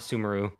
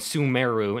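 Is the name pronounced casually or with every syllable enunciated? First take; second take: casually; enunciated. First: The name is said casually, syllables blurred. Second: The name is said with every syllable enunciated. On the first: The speaker calls it wrong. "not Sumeru" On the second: The speaker calls it right. "they like super pronounce the word"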